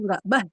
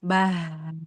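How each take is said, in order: First: The consonant is pressed hard with strong force. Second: The consonant is pressed lightly so the sound flows. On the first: The speaker calls it wrong. "nggak bah, nggak begitu" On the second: The speaker calls it right. "Kalau yang rokhawah penekanan pada makhrajnya lemah. Contohnya, bah. Jadi dia tidak ditekan"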